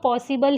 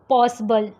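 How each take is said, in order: First: The middle vowel is a full vowel. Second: The middle vowel is a weak, reduced vowel. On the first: The speaker calls it wrong. "बहुत लोग इसको पॉसिबल ही पढ़ते हैं" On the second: The speaker calls it right. "एकदम वीक"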